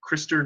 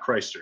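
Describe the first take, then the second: First: The first syllable sounds like 'kris'. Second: The first syllable sounds like 'Christ'. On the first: The speaker calls it right. "pronounced Krister" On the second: The speaker calls it wrong. "not Christer"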